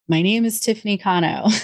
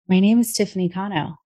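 First: The voice sounds tight, flat and placed high. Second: The voice sounds warm, soft and open. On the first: The speaker is speaking from the head. "that's a head voice" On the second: The speaker is speaking from the heart. "A heart voice is"

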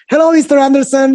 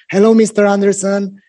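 First: It is said in a normal voice. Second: It is said in a low voice. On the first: The caller is not empathizing with the customer. The speaker calls it wrong. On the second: The caller empathizes with the customer's situation. The speaker calls it right.

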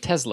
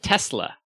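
First: The middle consonant is a buzzing Z sound. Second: The middle consonant is a hissing S sound. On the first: "Instead of Tesla" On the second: "so you would pronounce it Tesla"

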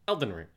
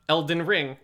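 First: The main stress falls on the first syllable. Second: The main stress falls on the last syllable. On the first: The speaker calls it right. "It's stress, unstress, unstress" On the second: The speaker calls it wrong. "It's not Elden Ring"

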